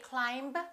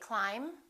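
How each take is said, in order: First: The final B is pronounced. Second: The final B is not pronounced. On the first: The speaker calls it wrong. "We don't say" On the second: The speaker calls it right. "the silent B"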